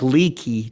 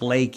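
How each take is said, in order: First: The first syllable sounds like 'lee'. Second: The first syllable sounds like 'lay'. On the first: The speaker calls it wrong. "it looks like Leaky" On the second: The speaker calls it right. "but it's pronounced Lakey"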